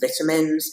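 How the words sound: It is said with an English accent.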